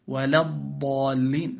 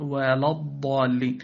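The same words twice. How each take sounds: First: Slow "ولا الضالين", thin l before the heavy ض; light lam. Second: "ولا الضالين" with dark l before ض; wrongly heavy lam. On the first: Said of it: "فاحذر من تأثرها". (ترقيق لام "ولا") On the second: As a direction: let ض thicken "ولا". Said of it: "لا تقل". (تفخيم لام "ولا") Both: Shown as a demonstration.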